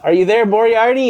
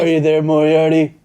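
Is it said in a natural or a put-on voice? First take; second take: natural; put-on. First: It is said in his natural voice. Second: It is said in a put-on voice.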